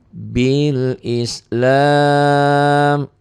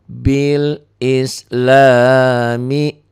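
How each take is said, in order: First: The phrase ends on a bare consonant. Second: The phrase ends with a final vowel sound. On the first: The reading stops at this word. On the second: The reading continues into the next word.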